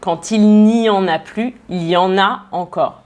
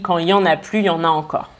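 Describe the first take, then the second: First: The 'il' and negation 'ne' are pronounced. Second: The 'il' and negation 'ne' are dropped. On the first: "On devrait dire" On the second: "Il a enlevé aussi le « ne » de la négation"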